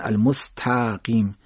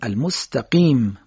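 First: The vowel after t is drawn out long. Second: The vowel after t is kept short. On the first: The speaker calls it wrong. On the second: The speaker calls it right.

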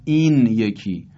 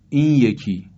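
First: A clear n sound comes before yeki. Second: The n merges into a y sound. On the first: "در اصل هست" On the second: "نون تبدیل میشه به یه"

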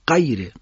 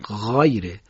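First: The first consonant is hard, like a q. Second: The first consonant is soft and drawn out. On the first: The speaker calls it wrong. "اگر غیره حرف غین با شدت ادا بشه میشه قاف... این صحیح نیست" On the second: The speaker calls it right. "غین رو باید نرم و کشیده ادا کنیم"

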